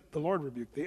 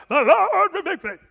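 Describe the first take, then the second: First: Said in the usual way. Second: Much higher, louder mock cry; hammed-up shouted cry, laughing. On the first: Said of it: "He said". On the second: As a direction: wail it out like an over-the-top preacher. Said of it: "It didn't say he cried out".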